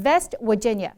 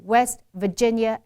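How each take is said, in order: First: "West Virginia" said as "Vest Wirginia"; v opens "West", w opens "Virginia"; V and W swapped. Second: "West Virginia" with w first, then v; rounded w in "West", buzzed v in "Virginia"; correct W and V. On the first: Teacher imitating the mistake, V and W swapped. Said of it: "V and W全部反掉". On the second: Teacher giving the correct example, w and v in place. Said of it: "是这个V and W". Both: Shown as a demonstration.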